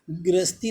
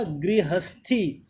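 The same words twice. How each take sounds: First: गृहस्थी squeezed to gras-tee; wrong pronunciation. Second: गृहस्थी slowly as gri-has-thee; correct pronunciation. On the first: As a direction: swallow the "ha" of गृहस्थी. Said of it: "गृहस्थी नहीं होता है". (गलत उच्चारण, गृहस्थी को "ग्रस्ती" बोलें) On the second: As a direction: give गृहस्थी its full "ha". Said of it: "ये गलत होगा". (सही उच्चारण, गृहस्थी धीरे से पूरा) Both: Shown as a demonstration.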